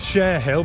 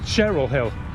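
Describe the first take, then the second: First: It sounds like share hill. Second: It sounds like cheryl hill. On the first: This is how the spelling reads. "it's written Share Hill" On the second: This is how it is actually said. "but it's pronounced Cheryl Hill"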